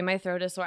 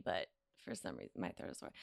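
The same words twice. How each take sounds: First: Low, rough sore-throat voice on "my throat is sore". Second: Whispered sore-throat rasp on "my throat is sore". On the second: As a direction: drop to a breathless whisper, voice gone. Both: Real, not acted.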